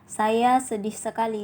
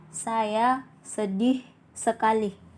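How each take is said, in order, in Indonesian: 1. Suku kata terakhir diucapkan dengan panjang biasa. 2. Suku kata terakhir diucapkan panjang.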